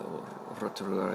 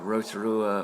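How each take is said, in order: First: The name is said with the Māori pronunciation. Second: The name is said with an anglicized pronunciation.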